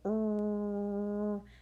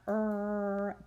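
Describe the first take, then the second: First: The R sound is made with rounded, puckered lips. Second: The R sound is made without rounded lips. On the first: The speaker calls it right. "it's er. So tell them, pucker up" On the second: The speaker calls it wrong. "R is not er"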